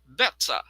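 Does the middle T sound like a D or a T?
T. The middle T is a crisp T sound.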